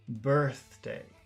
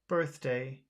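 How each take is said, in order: First: The word is said with strong, drawn-out emphasis. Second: The word is said plainly, without extra emphasis. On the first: "focus birthday" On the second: "Normal birthday"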